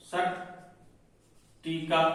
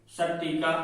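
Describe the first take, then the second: First: सट्टिका stretched very slowly and softly; drawn out. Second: Said in the usual way. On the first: Shown as a demonstration. Teacher slowly stretching सट्टिका for the class. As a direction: drag out every sound of सट्टिका. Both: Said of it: "सट्टिका हो गया".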